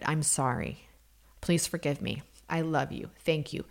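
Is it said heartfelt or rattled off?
heartfelt. It is said slowly with deep feeling.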